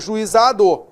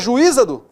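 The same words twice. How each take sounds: First: The stress is on the second-to-last syllable. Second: The stress is not on the second-to-last syllable. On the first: The speaker calls it right. "paróxito terminado em o não tem acento" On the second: The speaker calls it wrong. "Não é juizado"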